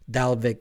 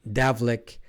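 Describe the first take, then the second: First: The L sound comes before the V sound. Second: The V sound comes before the L sound. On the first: The speaker calls it right. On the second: The speaker calls it wrong.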